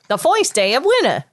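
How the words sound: It is said in a New York accent. "New York accent. Foist"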